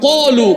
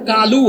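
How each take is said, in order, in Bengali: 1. প্রথম ব্যঞ্জনটি মোটা, ভারী 'q' ধ্বনি। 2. প্রথম ব্যঞ্জনটি চিকন, হালকা 'k' ধ্বনি। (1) "আরবিতে সাতটা অক্ষর মোটা ... বলিষ্ঠ করে পড়তে হয়" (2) "বাংলায় যেটা কালু হয়"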